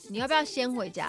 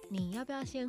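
First: It is said in a sharp, annoyed tone. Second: It is said in a soft, gentle tone. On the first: An irritated demand to leave. "那如果不爽是" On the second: A caring suggestion to go home. "你可以温柔说"

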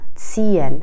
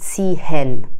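First: The middle h is silent and the vowel lengthened. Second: The middle h is clearly pronounced. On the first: The speaker calls it right. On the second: The speaker calls it wrong. "نمیگن تیهن"

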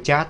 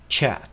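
First: It is said with a Vietnamese-style ch sound. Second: It is said with a longer, softer English ch sound. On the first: The speaker calls it wrong. "tiếng Việt Nam như thế" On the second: The speaker calls it right. "đọc chuẩn phải là chat, nó dài hơn một chút và nó êm hơn một chút"

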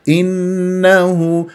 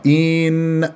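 First: The first vowel has normal short length. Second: The first vowel is drawn out long. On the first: The speaker calls it right. "لا مط ولا اختلاس" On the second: The speaker calls it wrong. "يمطها"

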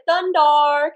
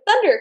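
First: The name ends with a changed final sound. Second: The name ends just like the word thunder. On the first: "such a small, slight ending change" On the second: "just normal Thundar, like thunder and lightning"

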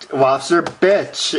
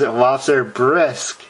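First: The last word ends with a 'ch' sound. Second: The last word ends with an 'sk' sound. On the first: The speaker calls it wrong. "can I get the lobster bitch?" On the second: The speaker calls it right. "it says lobster bisque"

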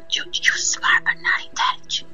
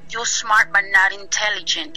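First: It is said softly and slowly, like a whisper. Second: It is said louder, in a fuller voice. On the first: "Pero me lo decía muy despacio" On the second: "Y ya después me lo dijo más fuerte"

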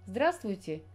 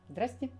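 First: The word is said in full with all sounds. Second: The word is shortened, dropping middle sounds.

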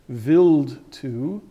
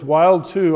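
First: The name is pronounced the German way. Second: The name is pronounced the American way. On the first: "the official pronunciation is Wild 2, if you're from Germany" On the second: "I use the American pronunciation"

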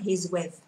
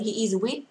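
First: He and is are contracted into one syllable. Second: He and is are said as separate words. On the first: The speaker calls it right. "đọc là he's with" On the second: The speaker calls it wrong. "Không đọc là he is with"

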